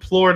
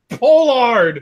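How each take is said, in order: First: The name is squeezed into one syllable. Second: The name is said with two full syllables. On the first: The speaker calls it wrong. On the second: The speaker calls it right.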